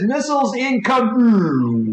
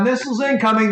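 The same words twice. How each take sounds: First: Drawn-out, higher missile alert; urgent alarm. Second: Said in the usual way. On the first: Acted. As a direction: stretch the warning out like an alarm. Ship AI sounds the alarm.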